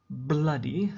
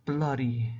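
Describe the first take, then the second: First: Bloody said with a rising, questioning tune. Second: Bloody said with a firm falling tune. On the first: Teacher first presenting the word to students, rising. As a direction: lift the end of bloody up. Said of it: "teacher introduces the word". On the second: Teacher showing how the swear sounds, firmly falling. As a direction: drop the pitch at the end of Bloody, emphatic. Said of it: "it just means incredibly". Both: Shown as a demonstration.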